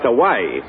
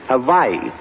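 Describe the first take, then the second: First: The middle consonant is a W sound. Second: The middle consonant is a V sound. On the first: The speaker calls it wrong. "It's not pronounced Hawaii" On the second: The speaker calls it right. "On the islands, the W is pronounced like a V"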